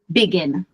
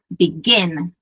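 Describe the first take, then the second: First: The stress is on the first syllable. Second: The stress is on the last syllable. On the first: The speaker calls it wrong. "eu não falo begin" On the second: The speaker calls it right. "eu falo begin"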